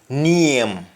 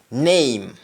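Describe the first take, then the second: First: It is said in a Jamaican accent. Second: It is said in a standard English accent. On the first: "Instead of name, you say name" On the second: "In English we say name"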